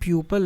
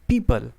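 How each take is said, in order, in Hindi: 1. पहला स्वर 'pyoo' जैसा लगता है। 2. पहला स्वर 'pee' जैसा लगता है। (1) "इसको हम प्यूपल नहीं पढ़ेंगे" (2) "करेक्ट जो उच्चारण होगा"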